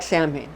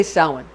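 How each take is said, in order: First: Samhain said as SAM-hayn; spelling pronunciation. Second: Samhain said as SOW-en; spoken pronunciation. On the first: Explaining the spelling to listeners, Samhain as SAM-hayn. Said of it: "It's spelled like Samhain". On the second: Telling how we say it, Samhain as SOW-en. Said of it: "but we say Samhain". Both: Shown as a demonstration.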